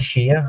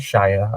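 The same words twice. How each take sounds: First: The vowel is reduced, sounding like 'sher'. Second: The vowel is full, sounding like 'shy-er'. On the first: This is how the local accent says it. "I say Shire" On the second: This is the technically correct, posher way. "I don't say Shire"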